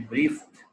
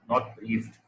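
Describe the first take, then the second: First: The ending is a short 't' sound, no extra syllable. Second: The ending is sounded as a separate 'ed' syllable. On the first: The speaker calls it right. "It should be briefed" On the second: The speaker calls it wrong.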